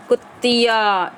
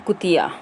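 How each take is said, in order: First: कुतिया stretched very slowly, held on a doubled त्त; stress on doubled consonant. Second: Said in the usual way. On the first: Shown as a demonstration. Teacher demonstrates stress on the tongue, कुतिया slow and weighted. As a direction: lean on the त in कुतिया, then draw out "या". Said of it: "इस तरह से". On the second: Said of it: "बलाघात बोलते हैं इनको".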